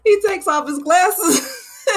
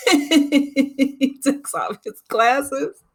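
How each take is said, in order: First: High laughing, near tears. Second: Drawn out through giggles; slowly, cracking up at the memory; slow, laughing. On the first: Repeating the glasses scene to viewers, near tears laughing. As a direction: repeat it higher, laughing hard. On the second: Retelling the glasses scene to viewers, laughing slowly. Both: Real, not acted.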